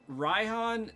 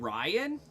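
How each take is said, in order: First: The name is said with an h sound. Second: The name is said without an h sound. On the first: The speaker calls it wrong. "Raihan sounds too abrasive" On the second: The speaker calls it right. "I want to call him Ryan ... slaughtering the existence of the H in his name"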